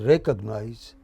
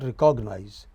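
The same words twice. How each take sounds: First: The stress falls on the first syllable. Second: The stress falls on a later syllable. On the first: The speaker calls it right. "it is recognize" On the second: The speaker calls it wrong. "It is not recognize"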